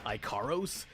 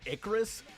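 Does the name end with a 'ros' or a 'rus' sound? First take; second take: ros; rus. First: The name ends with a clear 'ros' sound. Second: The name ends with a weak 'rus' sound. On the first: The speaker calls it wrong. "I joked about bad pronunciation earlier" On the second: The speaker calls it right. "As in Icarus?"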